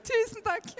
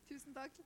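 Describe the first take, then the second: First: Bright thanks. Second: Murmured thanks. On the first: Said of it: "Du er som blessing". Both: Real, not acted.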